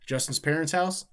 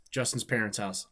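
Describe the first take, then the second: First: Higher, louder "Justin's parents' house?" with rising end; questioning. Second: Said in the usual way. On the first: Real, not acted. Streamer reading a viewer's question aloud, questioning rise on "house?". Reads question then answers it.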